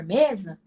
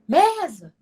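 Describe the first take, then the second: First: Said in the usual way. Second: "mesa" called out high with a long first syllable; calling out. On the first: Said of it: "Quando você grita pela palavra". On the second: Shown as a demonstration. Teacher shows students how to shout for the word mesa, high calling voice. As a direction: shout for the word, pitch leaping on "me". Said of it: "Quando você grita pela palavra mesa".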